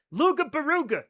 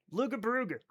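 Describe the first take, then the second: First: Luga Baruga said loo-ga ba-roo-ga, higher. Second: Luga Baruga said softly, loo-ga ba-roo-ga. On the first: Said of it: "Yes, Loughborough". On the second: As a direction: quietly repeat Luga Baruga. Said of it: "I still love that". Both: Shown as a demonstration.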